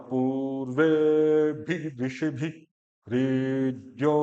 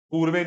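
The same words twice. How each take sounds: First: पूर्वेभिरीड्यो very slow with ऊ, ए, ई, ओ held long; long vowels. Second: पूर्वे said quickly, vowels short; the rushed पूर्वे he avoids; wrong short. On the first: Teacher chants पूर्वेभिरीड्यो slowly for the student. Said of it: "तो जो दीर्घ है". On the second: Teacher shows the clipped wrong पूर्वे. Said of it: "पूर्वे नहीं कर रहा मैं". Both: Shown as a demonstration.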